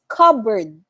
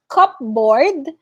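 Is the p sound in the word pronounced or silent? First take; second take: silent; pronounced. First: The p sound is left out. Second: The p sound is clearly pronounced. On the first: The speaker calls it right. "so we don't say the letter P" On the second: The speaker calls it wrong. "it's not cupboard"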